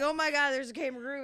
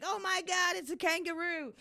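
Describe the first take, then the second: First: Quick, high American gushing; excited mock gasp of discovery, pitched up and quick; imitated excited onlookers. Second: High-pitched, awestruck crowd with an Australian twang; mock Australian accent. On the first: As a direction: imitate an amazed American crowd in your own accent. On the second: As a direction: imitate amazed onlookers in an accidental Australian accent. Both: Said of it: "I don't know why I turned Australian then".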